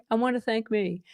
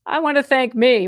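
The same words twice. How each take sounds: First: A hint of [name], softer and laid-back; [name] impression. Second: Said in the usual way. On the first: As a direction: lightly imitate [name] thanking himself. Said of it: "Oh my God, [name]". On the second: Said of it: "don't forget to thank yourself".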